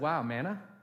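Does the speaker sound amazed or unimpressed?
unimpressed. The voice sounds flat and unimpressed. The gift feels ordinary and barely enough. The speaker calls it wrong. "As if they deserved that and a little bit more"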